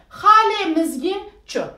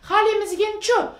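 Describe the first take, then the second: First: It is read slowly, syllable by syllable. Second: It is read at a normal, fluent pace.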